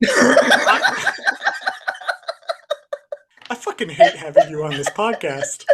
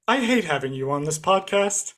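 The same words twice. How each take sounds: First: Helpless laughter through the words; mock hatred breaking up with laughter; laughing. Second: Said in the usual way. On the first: Real, not acted. Host cracking up at much younger co-host, laughing.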